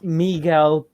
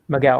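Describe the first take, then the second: First: The name is said with Spanish sounds. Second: The name is said with American English sounds. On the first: This is the name's original pronunciation. "to be honest, it's Miguel" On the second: This is how the owner usually says it. "with my American accent and all that"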